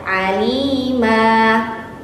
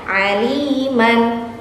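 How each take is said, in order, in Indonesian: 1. Kata ini berakhir dengan vokal panjang, tanpa n. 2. Kata ini berakhir dengan vokal pendek ditambah n.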